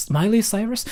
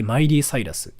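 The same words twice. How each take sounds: First: Miley Cyrus said in native English, MY-lee SY-rus with English r; English pronunciation. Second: Miley Cyrus said as katakana, mai-rī sai-ra-su; Japanese pronunciation. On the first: Showing viewers the foreigner's way, Miley Cyrus in English sounds. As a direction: say Miley Cyrus like an American, a higher questioning lilt. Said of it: "But they say, like". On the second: Showing viewers how Japanese say it, [name] in katakana. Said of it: "So we say". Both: Shown as a demonstration.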